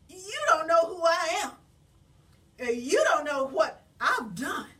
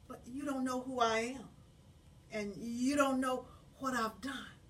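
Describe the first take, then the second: First: It is said proudly, with a defiant tone. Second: It is said humbly, without pride.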